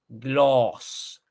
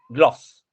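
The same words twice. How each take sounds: First: The vowel is long and rounded. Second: The vowel is short and open. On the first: The speaker calls it right. "Larga la, la O" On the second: The speaker calls it wrong. "no es gloss"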